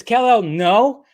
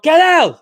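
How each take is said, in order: First: Said in the usual way. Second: "Kal-El" shouted high and loud; the yelled version without the no; yelled name. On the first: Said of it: "the no just kinda goes, eh". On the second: Shown as a demonstration. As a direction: call "Kal-El" out in a single loud cry. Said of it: "If she just yelled".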